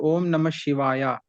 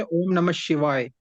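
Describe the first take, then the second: First: "शिवाय" with a long final aa; southern pronunciation. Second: "शिवाय" with no final vowel; northern pronunciation. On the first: Student shows teacher his own chant, "शिवाय" ending in aa. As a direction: stretch "शिवाय" to shivaayaa. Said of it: "हम pronounce करते हैं". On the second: Student shows teacher northern chant, "शिवाय" ending on y. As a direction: end "शिवाय" on y, as shivaay. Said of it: "लेकिन north में". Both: Shown as a demonstration.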